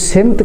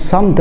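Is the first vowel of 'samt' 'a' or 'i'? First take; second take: i; a. First: The first vowel is 'i'. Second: The first vowel is 'a'. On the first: The speaker calls it wrong. "یہ سمت کا لفظ غلط ہے، یعنی اس کو سین کے نیچے زیر نہیں دینی" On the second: The speaker calls it right. "سین کے اوپر زبر پڑنی ہے"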